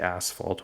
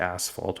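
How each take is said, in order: First: It is said the American way. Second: The same.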